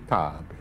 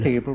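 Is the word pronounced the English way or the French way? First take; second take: French; English. First: It is said with French pronunciation. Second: It is said with English pronunciation.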